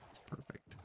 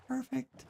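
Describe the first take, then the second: First: Whispered "It's perfect.". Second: "Perfect." repeated higher and softer. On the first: Gamer admiring a land bridge, whispered. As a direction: breathe "It's perfect." in a hush. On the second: Gamer admiring a land bridge, higher repeat. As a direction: lift "Perfect." up high, softly. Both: Real, not acted.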